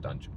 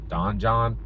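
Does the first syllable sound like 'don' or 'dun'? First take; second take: dun; don. First: The first syllable sounds like 'dun'. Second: The first syllable sounds like 'don'. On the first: This is how the speaker says it. "I pronounce it Dungeon" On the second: This is how others often say it. "they often pronounce it Donjon"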